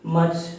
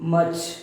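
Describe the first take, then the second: First: The r sound is silent. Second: The same.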